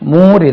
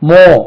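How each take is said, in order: First: The vowel is a long oo sound. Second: The vowel is a long oh sound. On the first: The speaker calls it wrong. "மூர் இல்லை" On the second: The speaker calls it right. "மோ இல்லைன்னா மூவ என்று உச்சரிப்பாங்க"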